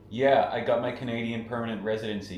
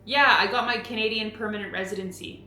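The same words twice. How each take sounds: First: Canadian vowels, playful; Canadian accent. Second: Canadian accent. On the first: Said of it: "in a Canadian accent?". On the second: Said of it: "Can you say it first?". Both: Shown as a demonstration.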